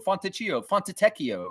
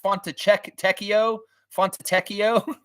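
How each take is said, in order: First: Put-on Fontecchio said quickly the old wrong way, with a ch sound; old wrong pronunciation. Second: Fontecchio sounded out slowly and high, each syllable separate; slow careful pronunciation. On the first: Streamer admitting how he mispronounced it, quick and casual. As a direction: rattle off the wrong Fontecchio you used to say. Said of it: "I was calling him Fontecchio". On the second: Retold or imitated. Streamer repeating the name heard on TV, slow and careful. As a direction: try the new Fontecchio slowly, like learning it. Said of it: "that's how you say that".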